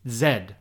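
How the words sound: The letter is said the British way.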